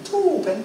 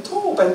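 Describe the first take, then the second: First: Said in the usual way. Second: Toben jumped up high; toben, said much higher. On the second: Shown as a demonstration. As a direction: pitch the word toben up high. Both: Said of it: "lob, toben".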